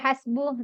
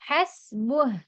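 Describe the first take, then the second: First: The word ends on a vowel with no h. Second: The word ends with an audible h sound. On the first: The speaker calls it wrong. "ചില ഹസ്ബു എന്ന് മാത്രം പറഞ്ഞ് നിർത്തും" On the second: The speaker calls it right. "ഹസ്ബുഹ് അവിടെ ഹ കേൾക്കണം"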